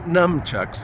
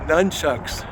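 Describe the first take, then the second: First: The first syllable ends with an m sound. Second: The first syllable ends with an n sound. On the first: The speaker calls it wrong. "Not numchucks, even though they make you numb" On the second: The speaker calls it right. "Nun, as in sister"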